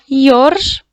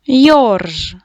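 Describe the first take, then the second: First: Йорж with the О raised and held; stress on О. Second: Said in the usual way. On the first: Shown as a demonstration. Teacher showing pupils where the stress falls, Йорж with a stressed О. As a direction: lean hard on the О in Йорж. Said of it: "падає наголос на О". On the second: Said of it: "Поділіть слово на склади".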